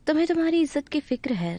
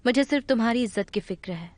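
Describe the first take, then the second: First: तुम्हारी lifted high and falling, the key word; stress on tumhari. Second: मुझे pressed hard at the start, rest level; stress on mujhe. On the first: Woman tells the man his honour matters, stressing तुम्हारी. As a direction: lean on तुम्हारी: your own honour. Insisting he cares about honour. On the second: Woman answers him, pressing मुझे to claim the worry. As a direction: put the weight on मुझे: it is me who worries. Turns the honour line around. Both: Acted.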